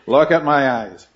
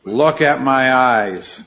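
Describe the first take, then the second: First: Said in the usual way. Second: Slow, each word pressed: Look at my eyes; firm mother's command. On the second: Retold or imitated. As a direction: slowly spell out "Look at my eyes" like a firm mom. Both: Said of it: "she had this line".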